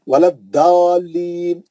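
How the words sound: The letter is said with a D sound, Arab style.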